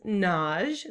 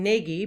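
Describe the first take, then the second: First: The name is said with one syllable. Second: The name is said with two syllables. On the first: "I use the Hungarian pronunciation" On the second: "a lot of people say that as a two-syllable name"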